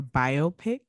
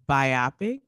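First: Biopic as BYE-oh-pick; current pronunciation. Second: Biopic as bye-OP-ic, rhyming with myopic; old pronunciation. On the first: Co-host contrasting two sayings of a word, current pronunciation BYE-oh-pick. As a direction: say biopic as bio plus pick. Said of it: "now we say biopic". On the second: Co-host contrasting two sayings of a word, old pronunciation bye-OP-ic. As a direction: stress the middle of biopic, bye-OP-ic. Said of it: "people used to say biopic". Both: Shown as a demonstration.

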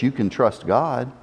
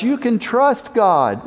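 First: Low and soft, almost to himself; preacher repeating Abel's words, softer and lower; quiet declaration. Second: Raised, slow declaration; preacher voicing Abel's cry, raised and slow. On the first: Acted. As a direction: let it fall soft and low. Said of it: "still declares with his lips". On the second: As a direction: proclaim it slowly, lifted. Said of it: "he cries out".

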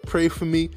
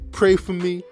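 Both takes have the same delivery.

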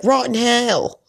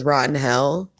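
First: High, louder mock Southern twang on Rotten hell; Southern accent imitation. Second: Said in the usual way. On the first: Imitating Brittany's Southern accent for her partner. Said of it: "I was trying to imitate her". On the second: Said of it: "as she says".

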